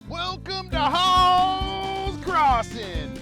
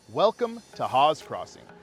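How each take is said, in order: First: It is said in a pushy car-salesman voice. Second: It is said in a natural everyday voice.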